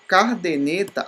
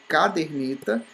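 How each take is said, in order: First: "cardeneta" with R in the first syllable; mispronounced caderneta. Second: "caderneta" with R in the second syllable; correct caderneta. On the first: Teacher showing a common error, cardeneta with misplaced R. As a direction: say car-de-ne-ta, R moved forward. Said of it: "as pessoas pronunciam errado". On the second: Teacher giving the right form, caderneta with "der". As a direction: say ca-der-ne-ta, R after the E. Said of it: "em vez de". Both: Shown as a demonstration.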